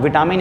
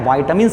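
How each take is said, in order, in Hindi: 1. पहला स्वर छोटा है, 'vit' जैसा। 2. पहला स्वर लंबा है, 'vite' जैसा। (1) "इसका सही उच्चारण नहीं होता है" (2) "वाइटामिन्स इसका सही प्रोनाउंसिएशन है"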